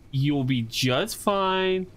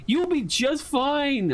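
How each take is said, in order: First: Calm it down gently; soothing. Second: High, slow, anxious reassurance; pleading with it not to move; nervous pleading. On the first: Streamer calming the twitching squid, slow soothing. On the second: Streamer begging the twitching squid, high nervous reassurance. Soothing again, more nervous. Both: Pretend.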